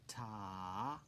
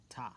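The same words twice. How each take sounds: First: "Ta" drawn out over two beats; long sustained "Ta"; held half note. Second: "ta" said briefly, on one beat; one quick falling "ta"; short single beat. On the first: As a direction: stretch the vowel of "Ta" long, lifting at the end. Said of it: "Half note". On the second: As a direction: cut "ta" short with no held vowel. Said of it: "we end with a ta". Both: Shown as a demonstration.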